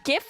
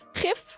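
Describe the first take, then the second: First: It begins with a hard G sound. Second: It begins with a throaty, rasping G sound. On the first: "GIF like gift" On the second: "pronounce it like the Dutch way"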